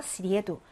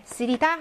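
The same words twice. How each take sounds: First: "쓰리에두" stressed on 리에, light final 두; stress moved forward. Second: "쓰리다" stressed on its final syllable; stress on last syllable. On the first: Teacher shows the accusative, "쓰리에두" stressed toward the front. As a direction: hit the 리에 in "쓰리에두", drop the ending. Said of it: "앞으로 이동한다는 거 중요합니다". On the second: Teacher gives the word for Wednesday, "쓰리다" stressed at the back. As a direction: put the weight on the end of "쓰리다". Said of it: "강세가 앞으로 이동한다는 거". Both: Shown as a demonstration.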